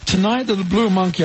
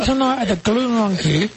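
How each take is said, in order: First: The word Blue starts with a clear b sound. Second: The word Blue starts with a g-like sound. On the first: It is said with the lips moving. "I'll say it with my lips moving" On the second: It is said without moving the lips. "I can't say Blue Monkey, I say Glue Monkey"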